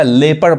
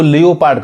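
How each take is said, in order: First: लेपर्ड said as "lep-erd"; लेपर्ड with silent o and short ending; correct pronunciation. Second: लियोपार्ड said as "lee-o-paard"; लियोपार्ड in three syllables, long final aa; mispronunciation. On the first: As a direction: say लेपर्ड in two syllables, no o. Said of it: "जबकि ये क्या पढ़ाएगा". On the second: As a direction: sound out the o in लियोपार्ड. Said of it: "बहुत लोग mispronounce करते हैं". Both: Shown as a demonstration.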